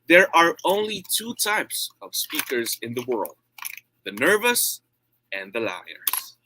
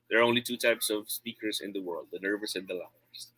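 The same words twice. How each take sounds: First: It is read with varying tone and volume. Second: It is read flatly in a monotone.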